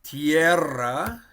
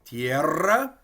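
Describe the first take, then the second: First: "Tierra" with a strong trilled double R; rolled Spanish R. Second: "Tierra" again with trilled rr and rising tune; rolled Spanish R. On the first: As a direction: roll the rr in "Tierra" hard. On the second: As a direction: repeat "Tierra", trilling the double R. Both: Shown as a demonstration. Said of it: "so you can hear we kind of roll it".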